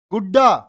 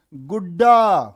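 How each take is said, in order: First: गुड्डा said short and loud, punching the doubled ड्डा; loud gudda. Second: गुड्डा stretched slowly, stress on the doubled ड्डा; drawn-out गुड्डा. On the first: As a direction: call out गुड्डा sharply to the class. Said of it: "तो डे डे कितनी बार?". (गुड्डा ज़ोर से और छोटा) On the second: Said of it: "जैसा तुम कहते हो ना किसी को प्यार से". (गुड्डा धीरे और खींचकर) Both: Shown as a demonstration.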